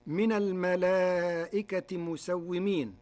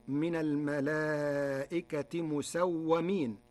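First: Said in the usual way. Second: "مسومين" as musawwamin, with an a after the doubled w; fatha on waw. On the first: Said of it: "كلمة مسومين بفتح". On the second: Shown as a demonstration. Teacher showing Warsh's passive form, "مسومين" said musawwamin. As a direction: say "مسومين" with -wwa-, not -wwi-. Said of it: "مسومين بفتح الواو".

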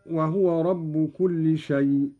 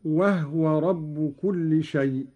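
First: وهو said as wahuwa; measured verse, وهو in three syllables wa-hu-wa; voweled ha. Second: وهو said as wahwa; slow verse, وهو in two syllables wah-wa; still ha. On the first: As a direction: recite وهو with u after the ha. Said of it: "قرأ قالون بإسكان الهاء". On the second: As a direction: close the first syllable of وهو on ha. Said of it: "قرأ قالون بإسكان الهاء هكذا". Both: Shown as a demonstration.

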